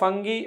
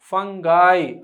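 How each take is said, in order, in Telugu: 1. ఈ పదం 'ee' శబ్దంతో ముగుస్తుంది. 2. ఈ పదం 'eye' శబ్దంతో ముగుస్తుంది. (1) "మీరు ఒకవేళ ఫంగి అని పలికితే అది రాంగ్" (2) "ఇది ఫంగాయ్ అని పలకాలి"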